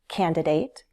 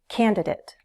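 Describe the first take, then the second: First: The last syllable has a long A vowel. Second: The last syllable has a weak schwa vowel. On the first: "So you can use the long A" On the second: "or the schwa sound"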